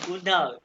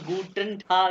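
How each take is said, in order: First: The words are run together quickly and reduced. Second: Each syllable is said fully and carefully. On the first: "German accent में पढ़ा रहा हूँ, गुड डाग, तेज़ी में" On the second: "अब मैं उसे गूटन टाग नहीं"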